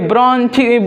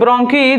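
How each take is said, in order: First: The second syllable starts with a 'ch' sound. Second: The second syllable starts with a 'k' sound. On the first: The speaker calls it wrong. "ब्रोंची लिखा है" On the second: The speaker calls it right. "हम लोग इसको pronounce करेंगे ब्रोंकी"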